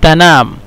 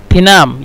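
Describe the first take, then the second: First: "تنام" said the standard Arabic way, "tanam" with an a; Fusha pronunciation. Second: "تنام" said the Egyptian way, "tinam" with an i; Egyptian pronunciation. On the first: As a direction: say "تنام" as "ta-NAM", with a after the t. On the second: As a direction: say "تنام" as "ti-NAM", with i after the t. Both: Shown as a demonstration. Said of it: "تنام يعني تنام".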